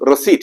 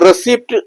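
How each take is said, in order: First: The word is said with no p sound. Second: The word is said with a p sound. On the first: The speaker calls it right. "പി silent ആണ്. അതുകൊണ്ട് റെസീറ്റ് എന്നേ പറയാൻ പാടുള്ളൂ" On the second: The speaker calls it wrong. "സ്റ്റൈലാക്കി പറഞ്ഞ ആൾക്കാരുടെ തെറ്റാണ്"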